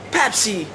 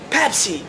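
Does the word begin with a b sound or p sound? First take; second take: p sound; p sound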